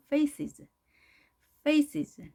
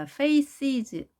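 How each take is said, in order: First: "Faces" high on "fa", dipping into a weak "es"; weak ending. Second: "faces" with a firmly sounded "es"; strong ending. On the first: Teacher models "faces" for learners, ending weak and dipping. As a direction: let the "es" of "Faces" sink lightly into a valley. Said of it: "이렇게 약하게 계곡으로 들어가죠". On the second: Teacher shows what to avoid, "faces" with strong ending. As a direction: give the second syllable of "faces" full weight. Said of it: "여기 소리를 강하게 하지 마시고요". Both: Shown as a demonstration.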